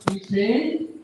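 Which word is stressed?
fail. The stress falls on the word fail. "or you may stress on fail"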